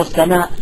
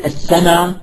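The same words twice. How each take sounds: First: "السماء" closed by a glottal stop; long vowel then hamza in "السماء"; full final hamza. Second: "السماء" as as-sama, open ending; no glottal stop closing "السماء"; hamza dropped. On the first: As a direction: sound the original hamza ending "السماء". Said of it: "هي أصل السماء". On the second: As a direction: leave off the final hamza of "السماء". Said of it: "الحذف مثل السماء". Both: Shown as a demonstration.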